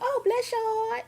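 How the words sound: It sounds warm and sincerely happy.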